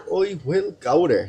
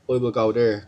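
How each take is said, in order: First: The words are said with lively, punchy energy. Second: The words are said flatly, without extra energy. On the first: The speaker calls it right. "say them with a bit of energy" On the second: The speaker calls it wrong. "rather than just saying the words"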